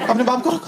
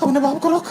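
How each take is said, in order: First: Panicked plea. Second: The same plea pitched even higher; second, more desperate "अपने बाप को रोक"; more panicked plea. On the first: Friend repeats plea. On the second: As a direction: push the plea up a notch in panic. Friend repeats plea, higher. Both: Retold or imitated.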